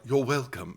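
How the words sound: It is said in an English accent.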